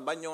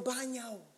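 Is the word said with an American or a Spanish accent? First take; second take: Spanish; American. First: The word is said with a native Spanish accent. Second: The word is said with an American accent. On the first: The speaker calls it right. "when I clearly could say, mi hermano" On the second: The speaker calls it wrong. "I don't know why I said it in an American accent"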